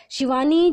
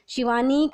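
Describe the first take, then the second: First: Calling Shivani from inside, much higher and louder, rising. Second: Calling Shivani, higher, with a rising call; a raised call across the house. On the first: Lata summons her daughter outside, yelling her name. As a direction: yell the name across the house. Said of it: "लता ज़ोर से चिल्लाती है". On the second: Lata calls her daughter to serve food, calling out. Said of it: "लता ने शिवानी को आवाज़ लगाई". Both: A narrator's reading.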